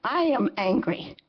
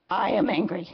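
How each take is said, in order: First: I hit hardest, falling off; I am angry with I stressed. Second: Am pressed hard and held; I am angry with am stressed. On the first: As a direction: lean on the word I. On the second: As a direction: push on the word am. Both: Real, not acted.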